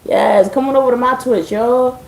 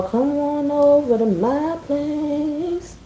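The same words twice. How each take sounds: First: Said in the usual way. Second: Slow, soft, drawn-out come-on, pitched up; suggestive invite. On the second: Pretend. Streamer teasing viewers to her Twitch, slow suggestive come-on. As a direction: purr the invitation slowly like a flirt. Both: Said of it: "I mean literally".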